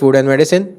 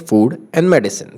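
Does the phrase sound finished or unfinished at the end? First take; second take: unfinished; finished. First: The pitch does not fall like a sentence end. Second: The pitch falls like a sentence end. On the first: The speaker calls it wrong. "ये मेरा sentence खत्म होने वाला sound नहीं है" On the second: The speaker calls it right. "तो ये sound आना चाहिए"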